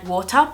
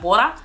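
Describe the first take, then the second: First: It is said in an adapted, clearer local pronunciation. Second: It is said in a broad natural Australian accent. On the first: Listeners here can understand it. "I say it like water because people understand me" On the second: Listeners here might not understand it. "whereas if I said it like water"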